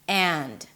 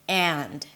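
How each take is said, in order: First: The word has a full vowel and a final d. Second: The word has a full vowel and a final d.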